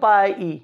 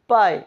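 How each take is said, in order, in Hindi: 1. अंत में एक अतिरिक्त स्वर ध्वनि जोड़ी जाती है। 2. अंत में कोई अतिरिक्त स्वर ध्वनि नहीं जोड़ी जाती। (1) "ऐसे नहीं बोलेंगे" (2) "ई साइलेंट"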